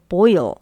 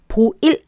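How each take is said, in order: First: It ends with a clear L, tongue tip raised. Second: It is said Korean-style, with no clear final L. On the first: The speaker calls it right. "혀를 끝에 어, 들고 쭉 펴주세요" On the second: The speaker calls it wrong. "보일 아니고"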